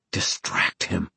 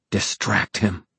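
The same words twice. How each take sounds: First: Hushed urgent whisper. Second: Said in the usual way. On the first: Acted. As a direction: breathe the words inward, slowly. Urgent inner thought, whispered.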